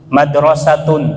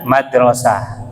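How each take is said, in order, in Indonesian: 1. Kata ini berakhir dengan bunyi -un. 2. Kata ini berakhir dengan bunyi -ah. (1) "bunyinya un-un semua" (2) "Dimatikan hurufnya"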